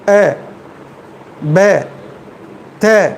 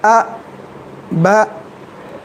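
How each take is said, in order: First: The syllables use an 'e' vowel instead. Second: The syllables use a short open 'a' vowel. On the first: "मजहूल पढ़ रहे" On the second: "आप खींचे भी नहीं, आप झटका भी नहीं दिए"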